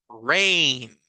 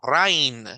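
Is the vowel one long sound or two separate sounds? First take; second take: one sound; two sounds. First: The vowels merge into one long vowel. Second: The two vowels are sounded separately. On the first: "en inglés esta palabra se pronuncia como rain" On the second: "en español esta palabra la leeríamos como rain"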